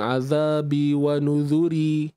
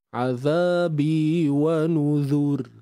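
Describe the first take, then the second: First: The last word ends with an added 'ee' vowel. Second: The last word ends on a light 'r' sound. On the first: The speaker calls it wrong. "kita takkan waqaf dengan bunyi azabi wa nuzuri. Tidak" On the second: The speaker calls it right. "Cukup dengan kita menipiskannya sahaja"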